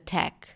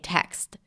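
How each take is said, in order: First: The final consonants are dropped from the word. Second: The final consonants are fully pronounced in the word. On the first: The speaker calls it wrong. "I tend to drop consonants at the end of words" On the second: The speaker calls it right. "I meant to say text"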